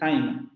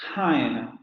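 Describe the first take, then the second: First: The first t has no puff of air. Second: The first t has a puff of air. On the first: The speaker calls it wrong. "no decimos time, porque así sería la pronunciación con nuestra T en española" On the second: The speaker calls it right. "Al inicio de palabra se va a aspirar"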